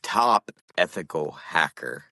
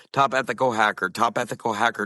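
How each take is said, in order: First: "Top ethical hacker" slow and separated, each word distinct; measured, lower-pitched "Top ethical hacker"; careful wording. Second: "top ethical hacker" run together quickly; rapid repeats of "top ethical hacker", sliding toward a mishearing; quick repetition. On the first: Demonstrates how phrase was misheard. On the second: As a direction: rattle off "top ethical hacker" so the words blur. Repeats phrase until it blurs. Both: Shown as a demonstration.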